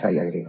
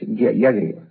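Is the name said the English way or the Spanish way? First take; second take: English way; Spanish way. First: The name is said the English way. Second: The name is said the Spanish way. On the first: The speaker calls it wrong. "No hay que pronunciar todo o escribir todo como si fuera inglés" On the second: The speaker calls it right. "es Yagriva"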